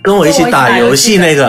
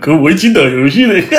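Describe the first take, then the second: First: It is said in a plain, ordinary tone. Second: It is said in a sneering, mocking tone.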